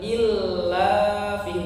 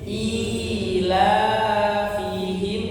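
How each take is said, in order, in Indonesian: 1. Bunyi i-nya pendek dan l-nya ganda. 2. Bunyi i dan la sama-sama dibaca panjang. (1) "bukan i gabungkan, jadi bukan illa fihim" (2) "tapi ila fihim, I-nya panjang, la-nya panjang"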